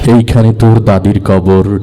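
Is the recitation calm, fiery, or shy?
calm. It is recited smoothly and expressively. "সে অনেক সুন্দর করে আবৃত্তি করলো"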